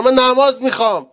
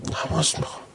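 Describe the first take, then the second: First: Loud, high cry of longing. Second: Whisper. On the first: Preacher crying out his longing for prayer, loud. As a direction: cry out the word نماز with full force, high and loud. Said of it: "whispered repeat after it". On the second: Preacher echoing his own cry to the congregation, whispered. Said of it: "loud take before it". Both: Shown as a demonstration.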